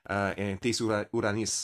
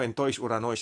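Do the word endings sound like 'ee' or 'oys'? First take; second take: ee; oys. First: The word endings are said with an 'ees' sound. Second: The word endings are said with an 'oys' sound. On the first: This is the modern Greek pronunciation. "I think now in modern Greek" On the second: This is the classical Greek pronunciation. "is like classical Greek"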